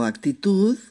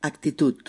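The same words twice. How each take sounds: First: Said in the usual way. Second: "actitud" said with a final T, "actitut"; final D of "actitud" becomes a T; Catalan actitud. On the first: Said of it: "se escribe igual". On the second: Shown as a demonstration. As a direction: end "actitud" on a T, not a D. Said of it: "pronunciamos actitud".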